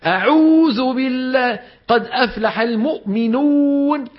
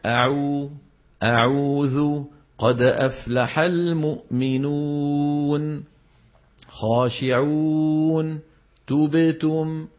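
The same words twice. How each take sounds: First: أعوذ بالله قد أفلح المؤمنون strained high and slow, exaggerated pressing; overdone recitation. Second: أعوذ قد أفلح المؤمنون slow with moderate lip rounding, no strain; moderate recitation. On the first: Mocking a reciter who strains too hard on every vowel. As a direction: overdo the rounding, eyes popping. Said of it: "رح يطلعوا عيونه". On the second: Teacher demonstrating the balanced way to round lips. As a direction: stretch the vowels gently, balanced. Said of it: "يضم الشفتين ضم وسط". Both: Shown as a demonstration.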